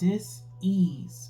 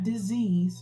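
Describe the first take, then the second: First: It is split into two parts, dis and ease. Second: It is said as one smooth ordinary word. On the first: It means a lack of ease. The speaker calls it right. "but dis-ease, D I S hyphen E A S E" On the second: It means an illness. The speaker calls it wrong. "not disease"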